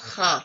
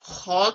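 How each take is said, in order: First: The letter is said thin, with an open vowel. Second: The letter is said heavy, with a rounded vowel. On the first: The speaker calls it wrong. "बारीक पढ़ा लफ्ज, मखरिज गलत हो गया" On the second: The speaker calls it right. "अब ये दोनों मोटे पढ़े जाते हैं"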